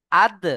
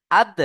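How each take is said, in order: First: আদ with the দ knocked out loud and bouncing; qalqala on আদ. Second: Said in the usual way. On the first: Shown as a demonstration. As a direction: punch the দ in আদ with an echoing bounce. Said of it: "এইভাবে কলকলা করতে হবে". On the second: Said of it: "এইভাবে".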